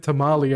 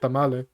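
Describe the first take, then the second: First: It is said with an English-style pronunciation. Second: It is said with a Spanish-style pronunciation. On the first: "I don't say tamale" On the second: "My accent really pops up when I'm saying Spanish words"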